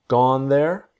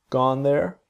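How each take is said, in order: No difference in how they are said.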